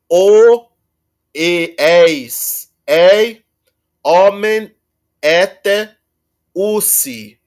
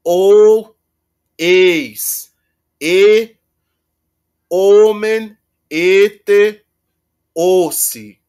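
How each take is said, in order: First: "o, eis, ei, omen, ete, usi" with long vowels; careful reconstructed Greek; indicative endings, reconstructed. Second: "o, eis, e, omen, ete, ossi" with long o; subjunctive endings, reconstructed. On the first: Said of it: "não, melhor". (pronúncia reconstruída, pausada) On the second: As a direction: stretch the long vowels. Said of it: "e vão dizer". (subjuntivo com vogais longas) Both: Shown as a demonstration.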